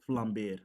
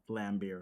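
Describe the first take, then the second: First: The name is said without an American pronunciation. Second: The name is said with an American pronunciation. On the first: The speaker calls it right. "That's how it's supposed to be pronounced" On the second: The speaker calls it wrong. "not Flambeer"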